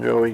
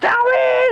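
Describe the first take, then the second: First: The name is said in a calm, normal tone. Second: The name is screamed very loudly.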